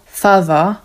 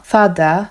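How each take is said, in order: First: "father" with th turned to v, "fava"; "father" said "fava", Cockney style. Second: Said in the usual way. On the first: Shown as a demonstration. Teacher shows Cockney "father" after "mother" as "mawa". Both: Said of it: "mother powiedzą mawa".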